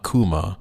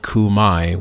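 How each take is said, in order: First: The name ends in an 'ah' sound. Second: The name ends in an 'eye' sound. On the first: This is the Italian way of naming it. "Here in Italy, we call kuma kuma" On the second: This is the English way of naming it. "We do not call it kumai. ... the English pronunciation of the Latin term"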